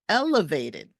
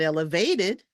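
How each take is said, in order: First: The stress is on the first syllable. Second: The stress is on a later syllable. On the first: The speaker calls it right. "The first syllable gets the stress" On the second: The speaker calls it wrong.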